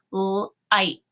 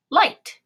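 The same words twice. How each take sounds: First: "Light" split into l, ight, t; sounded out. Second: Said in the usual way. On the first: Shown as a demonstration. Teacher showing how to tap a word, "Light" in separate sounds. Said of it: "tap this word out and say it". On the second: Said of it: "and say it".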